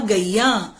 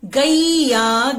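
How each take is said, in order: First: Said in the usual way. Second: "गैया" very slowly, as गई-या; teacher's drawn-out "गैया" with the ai glide; sounding out. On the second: Shown as a demonstration. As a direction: stretch both syllables of "गैया". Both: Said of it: "दूसरा हम word लिखते हैं".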